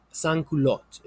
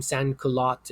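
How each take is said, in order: First: Sans-culottes with a nasal "sans" and French u; French pronunciation. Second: Sans-culottes said the English way, with "sans" like "sanz"; anglicized pronunciation. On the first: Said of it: "in French". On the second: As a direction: say sans-culottes as English words, no French nasal. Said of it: "you can call them". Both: Shown as a demonstration.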